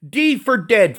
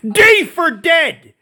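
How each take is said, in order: First: "D for dead" repeated higher, hitting "D", then falling; firm repeat. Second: "D for dead" yelled high and slow, each word hammered apart; drawn-out D for dead. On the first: Driving the point home, he repeats "D for dead" firmly. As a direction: restate "D for dead" with a hard stress on "D". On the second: Mocking the official, he bellows "D for dead" slowly. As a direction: stretch out "D for dead" into a high, slow, furious shout. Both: Real, not acted. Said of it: "How about this, you fat fuck?".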